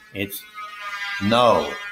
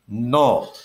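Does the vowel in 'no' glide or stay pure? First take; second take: glide; pure. First: The vowel glides from one sound into another. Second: The vowel is one pure, unchanging sound. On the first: "two vowel sounds merging with each other" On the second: "the way you say the word no in Spanish ... There's one vowel sound"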